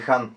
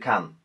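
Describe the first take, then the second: First: The name starts with a breathy H sound. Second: The name starts with a hard K sound. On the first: The speaker calls it right. "Хан ще си бъде Хан" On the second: The speaker calls it wrong. "няма да бъде Кан"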